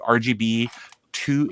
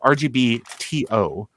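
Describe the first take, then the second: First: The word 'to' is said as one word. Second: The letters T and O are spelled out. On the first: The speaker calls it wrong. "I've been saying that wrong" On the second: The speaker calls it right. "it's R G B T O, like an email"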